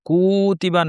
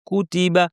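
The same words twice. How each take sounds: First: The first vowel is drawn out long. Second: The first vowel is short, not drawn out. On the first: The speaker calls it wrong. "কুতিবা না" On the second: The speaker calls it right. "কুতিবা বলতে হবে টান ছাড়া"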